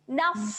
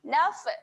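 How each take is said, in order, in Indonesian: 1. Huruf f di akhir diakhiri dengan napas yang dilepaskan. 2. Huruf f di akhir diakhiri dengan lepasan yang memantul. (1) "Kita lepaskan terus nafas" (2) "adanya orang baca dengan lantunan"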